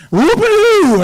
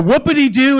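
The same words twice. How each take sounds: First: Very high, loud silly holler; high-pitched comic outburst on one held note; goofy whoop. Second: Said in the usual way. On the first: Shown as a demonstration. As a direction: let out a long wacky whoop. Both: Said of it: "just a whoopity-doo in here".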